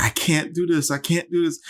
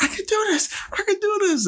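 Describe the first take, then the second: First: High, strained mock despair; imitating Nicole in labor. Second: Very high, squeaky mock resolve; imitating Nicole rallying. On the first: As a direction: echo her exhausted pleading. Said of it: "she's like". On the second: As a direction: pump yourself up in a falsetto. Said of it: "then she's like".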